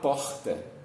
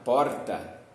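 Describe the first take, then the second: First: It is said with a Rio de Janeiro accent. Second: It is said with a São Paulo city accent. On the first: "se eu sou do Rio de Janeiro, eu vou falar porta" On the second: "E se eu for mais paulistano mesmo, eu posso falar porta"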